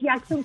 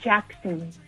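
First: The name is read with Spanish sounds. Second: The name is said with English sounds. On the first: The speaker calls it wrong. "No es Jackson como el hospital" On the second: The speaker calls it right. "es Jackson"

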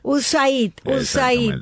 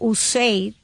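First: The letter A is said as Spanish 'a'. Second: The letter A is said as English 'ay'. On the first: "vamos a decirlo en español" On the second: "estoy pronunciando la A, como se pronuncia en inglés"

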